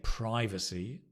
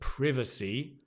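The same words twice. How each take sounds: First: It is said with an American pronunciation. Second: It is said with a non-American pronunciation.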